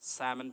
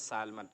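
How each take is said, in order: First: The L sound is left out of the word. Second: The L sound is pronounced in the word. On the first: The speaker calls it right. "एल silent है यहाँ पर, सैमन पढ़ेंगे" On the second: The speaker calls it wrong. "हम लोग पढ़ते हैं सैल्मन, गलत है"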